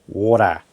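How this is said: The word is said in an Australian accent. "down in Oz, we would say"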